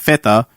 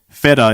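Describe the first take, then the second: First: The word is said with a Greek pronunciation. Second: The word is said with an English pronunciation. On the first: "instead of feta" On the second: "if I want to say feta"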